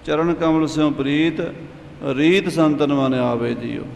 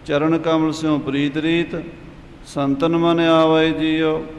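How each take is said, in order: First: The pause falls right before the word 'reet'. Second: The pause falls right after the word 'reet'. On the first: 'Reet' belongs with the second half of the line. "ਵਿਸਰਾਮ ਵੀ ਦੋ ਲੱਗਦੇ ਨੇ" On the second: 'Reet' belongs with the first half of the line. "ਵਿਸਰਾਮ ਵੀ ਦੋ ਲੱਗਦੇ ਨੇ"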